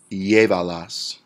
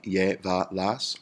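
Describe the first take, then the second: First: Said in the usual way. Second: "llévalas" broken into lle-va-las; syllable by syllable. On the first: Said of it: "where we count three syllables back". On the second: Shown as a demonstration. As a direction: count out "llévalas" in three slow beats. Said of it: "is three syllables".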